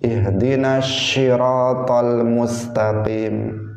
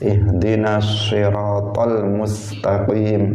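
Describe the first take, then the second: First: Syiratal starts with a sh-like sound. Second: Syiratal starts with an emphatic s sound. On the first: The speaker calls it wrong. "baca shin, atau baca antara sin dan shin" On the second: The speaker calls it right. "yang semestinya dia membacanya dengan shad"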